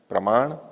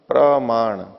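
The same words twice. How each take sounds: First: The vowel after pr is kept short. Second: The vowel after pr is drawn out long. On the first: The speaker calls it right. "प्र के आ को लंबा नहीं कीजिए" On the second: The speaker calls it wrong. "ऐसे नहीं"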